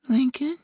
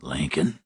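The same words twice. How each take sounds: First: High, thin woman calling on the phone; distant woman, barely there; small faraway woman's voice. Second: Low, quiet male voice on the line; a stranger's low murmur; low man's voice. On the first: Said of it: "the woman's voice repeated". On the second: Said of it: "he heard a man say". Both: A narrator's reading.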